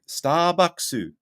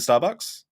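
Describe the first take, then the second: First: It is said with a Japanese-style accent and extra vowel. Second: It is said quickly with an American accent. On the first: Japanese listeners will understand it. The speaker calls it right. "which sounds racist" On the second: Japanese listeners will find it confusing. The speaker calls it wrong. "you're speaking too fast"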